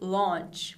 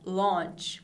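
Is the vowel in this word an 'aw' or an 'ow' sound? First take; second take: aw; aw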